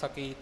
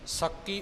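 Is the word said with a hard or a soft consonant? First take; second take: soft; hard. First: The word is said with a soft, light consonant. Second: The word is said with a hard, doubled consonant. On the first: The speaker calls it right. "ਪੋਲਾ ਉਚਾਰਨ ਕਰਨਾ" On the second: The speaker calls it wrong. "ਸਕੀ ਉਚਾਰਨ ਇੱਥੇ ਨਹੀਂ ਹੋਵੇਗਾ"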